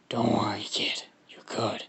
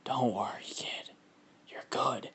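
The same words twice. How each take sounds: First: Husky creature voice, fading to whisper; Venom. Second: Hushed, whispery creature reassurance; Venom, sounding like Carnage. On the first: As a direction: redo it fuller, then sink into whispery rasp. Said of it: "Venom in his head, he's like". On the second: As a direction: reassure the kid in a soft monster whisper. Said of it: "Actually, that kinda sounds like Carnage". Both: Acted.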